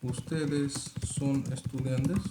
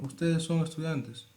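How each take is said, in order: First: It is said as a question, rising. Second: It is said as a statement, falling.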